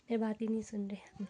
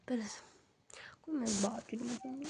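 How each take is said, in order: First: Said in the usual way. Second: Whisper. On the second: Real, not acted. Husband still asleep nearby.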